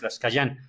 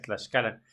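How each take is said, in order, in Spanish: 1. La consonante del medio suena como una Y. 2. La consonante del medio suena como una L. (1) "no es Tlaxcayán" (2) "es Tlaxcalan"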